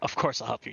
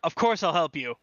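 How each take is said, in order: First: The line is said in a soft whisper. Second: The line is shouted very loudly. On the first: A quiet, intimate promise that fits the moment. The speaker calls it right. "if he just whispered that like once" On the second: A triumphant yell that ruins the moment. The speaker calls it wrong. "louder. Shouting at the top of his lungs"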